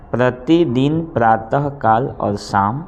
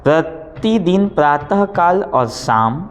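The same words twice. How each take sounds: First: Said in the usual way. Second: Teacher dictating, raised and drawn out; slow dictation voice. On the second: Shown as a demonstration. Teacher dictating to pupils, slow and raised. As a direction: spell each word out for copying. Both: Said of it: "आगे लिखिए".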